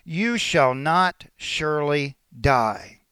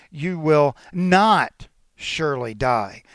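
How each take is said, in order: First: Said in the usual way. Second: 'not' said slowly and with weight; stress on not. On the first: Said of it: "you could read it this way". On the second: Shown as a demonstration. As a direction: lean hard on 'not', slowly. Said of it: "not" is emphatic".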